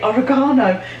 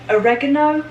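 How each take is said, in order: First: It is pronounced the British way. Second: It is pronounced the American way. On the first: "in England we say oregano" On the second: "Americans say oregano"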